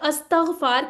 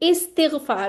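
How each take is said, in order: First: The word begins with an 'a' vowel. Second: The word begins with an 'i' vowel. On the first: The speaker calls it wrong. "बहुत कॉमन हम इसको गलत बोलते हैं" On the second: The speaker calls it right. "ये इस्तिगफार होता है"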